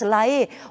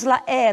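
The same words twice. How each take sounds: First: The E vowel is closed. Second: The E vowel is open. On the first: The speaker calls it right. "nós somente temos La E, ou seja, é sempre a pronúncia fechada" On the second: The speaker calls it wrong. "Nós não temos La E"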